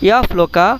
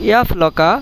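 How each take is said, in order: Both takes have the same delivery.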